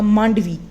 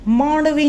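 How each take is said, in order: First: The middle consonant is a retroflex stop. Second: The middle consonant is a flapped retroflex sound. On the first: The speaker calls it right. "यहाँ मांडवी ही होगा" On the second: The speaker calls it wrong. "मांडवी नहीं हो सकता"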